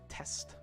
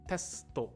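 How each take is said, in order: First: The word ends cleanly on the final consonant. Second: An extra vowel is added after the final consonant. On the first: This is how it is said in English. "but what is it in English? Test" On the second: This is how it is said in Japanese. "That one is testo, testo, right? In Japanese"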